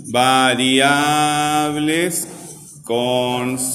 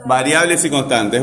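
First: "variables" and "constantes" stretched syllable by syllable; very slow, each syllable of "variables" and "constantes" held long; drawn-out dictation. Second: Said in the usual way. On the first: Shown as a demonstration. Teacher dictates the next heading to class, drawn out very slowly. Spells it out slowly while writing.

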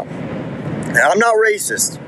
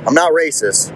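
First: High, slow, stretched "not racist"; mock-innocent drawn-out "I'm not racist"; drawn-out denial. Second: Said in the usual way. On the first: Real, not acted. Defensive aside before racial detail.

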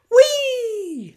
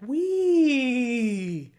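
First: "Wee!" squealed very high and very loud, all out; full gleeful wee. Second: A higher, louder "Wee!" that still falls short; a first try at a gleeful "Wee!", not all in; weak wee. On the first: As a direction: let the "Wee!" fly like on a rollercoaster. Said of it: "That was more like it". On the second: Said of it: "that didn't really sound that good". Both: Shown as a demonstration.

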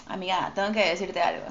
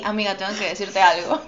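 First: Said in the usual way. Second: Laughing reenactment. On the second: Shown as a demonstration. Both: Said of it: "todavía me acuerdo que fue así".

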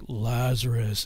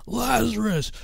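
First: "Lazarus" said low and drawn out, a touch lower than his own voice; imitating the singer's low call of "Lazarus"; deep summoning voice. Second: "Lazarus" flung up much higher and falling; imitating the song's climactic cry of "Lazarus"; soaring crescendo call. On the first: Friend retelling the song's deep voice calling Lazarus. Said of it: "he does this deep voice like". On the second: Friend mimicking the song's crescendo, calling Lazarus high. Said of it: "it builds up to the crescendo of the song".

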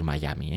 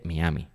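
First: Miami said English-style, "mai-A-mi"; English-style pronunciation. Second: Miami read as spelt, "mi-A-mi"; Spanish-style pronunciation. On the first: Host cites the banned way, Miami as "mai-ami". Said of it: "se supone que está prohibido, vetado decir". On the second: Host cites the academy's rule, Miami as "mi-ami". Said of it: "según la rae y todo esto". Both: Shown as a demonstration.

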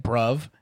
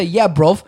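First: Bruv said in a normal American accent. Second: Raised, loud British lad impression; British accent. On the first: Shown as a demonstration. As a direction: say bruv with flat American vowels. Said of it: "just normal American accent". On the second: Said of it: "When British people say".

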